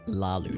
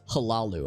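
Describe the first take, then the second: First: The word begins without any H sound. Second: The word begins with a pronounced H sound. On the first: The speaker calls it right. "the H is, I guess, presumably mostly silent" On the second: The speaker calls it wrong. "I always thought it was halalu. ... I think you enunciated the H"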